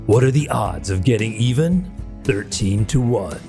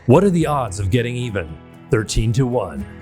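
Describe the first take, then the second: First: It is read in a dramatic movie-trailer voice. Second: It is read in a normal speaking voice.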